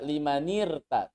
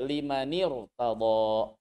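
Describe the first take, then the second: First: The r sound is light and thin. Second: The r sound is heavy and thick. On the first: The speaker calls it wrong. "Jangan membaca limanirta" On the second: The speaker calls it right. "roknya dibaca tebal"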